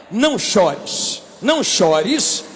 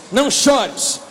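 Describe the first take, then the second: First: Slow, low and soothing; lightly voiced Jesus soothing a weeping widow; gentle comfort. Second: Said in the usual way. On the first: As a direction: hush her tears gently.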